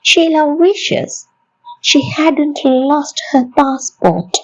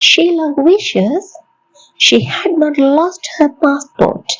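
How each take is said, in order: First: Had not is contracted into one syllable pair, hadn't. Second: Had not is said as two full words.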